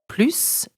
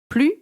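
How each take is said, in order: First: The word ends with an audible S sound. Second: The word ends without any S sound. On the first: It adds numbers or expresses a greater quantity. "pronounced with an S" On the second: It expresses a negative meaning no more. "pronounced without an S"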